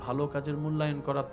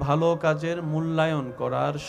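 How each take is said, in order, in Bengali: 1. এটি স্বাভাবিক আওয়াজে বলা হয়েছে। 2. এটি আগের চেয়ে জোরে বলা হয়েছে।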